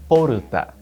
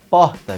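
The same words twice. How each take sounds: First: It is said with Japanese sounds, adding a vowel. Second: It is said with Portuguese sounds.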